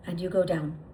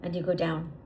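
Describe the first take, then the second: No difference in how they are said.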